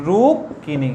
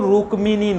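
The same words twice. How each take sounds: First: রুক্মিণী said as "rukkini" with a doubled k; রুক্মিণী, the ক held double and no m; correct Bengali pronunciation. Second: রুক্মিণী said with a clear k-m cluster, "rukmini"; রুক্মিণী, the ম sounded, Sanskrit style; wrong pronunciation. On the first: Teacher to pupils, giving the Bengali রুক্মিণী. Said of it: "বাংলাতে এর উচ্চারণ হচ্ছে". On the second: Teacher to pupils, showing the wrong রুক্মিণী. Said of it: "এর উচ্চারণ কিন্তু রুক্মিণী নয়". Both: Shown as a demonstration.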